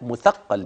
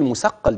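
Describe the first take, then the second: First: The second consonant is a th sound. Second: The second consonant is an s sound. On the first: The speaker calls it right. "لا مثقل بالثاء" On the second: The speaker calls it wrong. "اوعى تقول مثقل بالسين"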